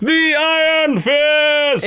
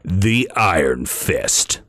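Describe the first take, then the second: First: It is shouted as a loud, dramatic announcement. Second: It is said in a plain, calm voice. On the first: "Should I say it like Mortal Kombat?" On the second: "Is that how you say it?"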